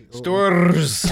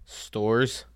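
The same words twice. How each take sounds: First: Hammed-up Storrs with a trilled ending; exaggerated pronunciation. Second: Said in the usual way. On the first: Shown as a demonstration. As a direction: roll and stretch the R in Storrs. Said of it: "How do you pronounce it?".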